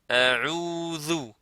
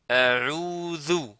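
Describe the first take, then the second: First: The middle consonant is a soft th sound. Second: The same.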